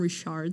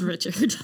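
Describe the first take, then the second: First: The name is pronounced the French way. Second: The name is pronounced the English way. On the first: The speaker calls it wrong. "I want to call him Richard so bad" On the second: The speaker calls it right. "but it's Richard"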